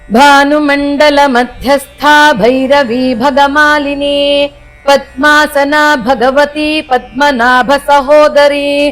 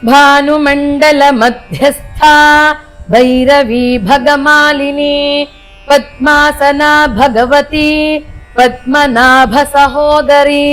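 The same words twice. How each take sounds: First: The verse is recited somewhat fast. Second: The verse is recited at a slow pace.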